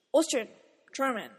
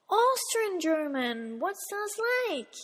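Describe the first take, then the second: First: Said in the usual way. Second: Drawn-out, incredulous classmate; mock puzzlement. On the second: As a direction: imitate a baffled classmate, stretching the words. Voices puzzled classmates' reaction.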